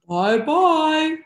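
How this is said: It is said in a big, gruff voice.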